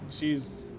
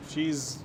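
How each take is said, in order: Both takes have the same delivery.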